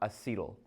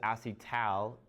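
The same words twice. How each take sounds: First: The ending sounds like the end of acetyl. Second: The ending is a clear 'al', as in aldehyde. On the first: The speaker calls it wrong. "not acetal" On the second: The speaker calls it right. "so I pronounce this as acetal"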